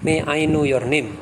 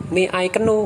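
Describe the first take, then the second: First: "know" said like "no", silent K dropped; "know" spoken as plain "no", no K sound; correct pronunciation. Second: "keno" said with the K sounded, two syllables ke-no; mispronounced "keno", spoken K kept in; wrong pronunciation. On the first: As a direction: drop the K so "know" rhymes with "go". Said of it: "K-nya nggak usah dibaca". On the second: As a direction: sound the silent K aloud in "keno", as a deliberate mistake. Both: Shown as a demonstration.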